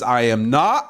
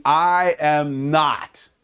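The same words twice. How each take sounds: First: Said in the usual way. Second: I am not, drawn out slowly, each word apart; slow denial. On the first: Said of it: "While Jesus says". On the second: Retold or imitated. Preacher voicing Peter denying Jesus, slow drawn-out denial. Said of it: "Peter keeps saying".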